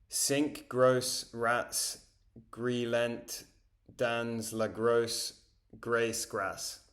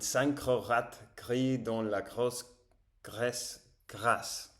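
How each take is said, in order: First: It is spoken with a strong English accent. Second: It is spoken with a French-like accent. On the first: "avec un accent très anglais" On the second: "C'est très différent"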